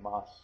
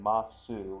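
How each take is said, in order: First: The final u vowel is dropped. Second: The final u vowel is fully pronounced. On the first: The speaker calls it right. "we say mas" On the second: The speaker calls it wrong. "we don't say"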